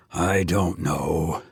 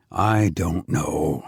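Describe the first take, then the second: First: Lower, softer, slow and gentle; an old priest unsure of himself; quiet gentle old priest; gentle doubt. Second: Low, slow, gentle repeat; gentle doubt. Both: A narrator's reading. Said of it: "old and wise and gentle".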